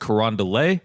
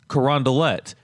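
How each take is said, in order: First: The name is pronounced the French way. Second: The name is pronounced the anglicized way. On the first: The speaker calls it wrong. "you might look at the name and think that it's French" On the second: The speaker calls it right. "the way that the locals say it"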